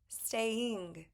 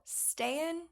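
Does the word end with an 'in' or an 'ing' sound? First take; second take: ing; in. First: The ending is a full 'ing' sound. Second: The ending is a short 'in' without the g. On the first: The speaker calls it right. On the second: The speaker calls it wrong.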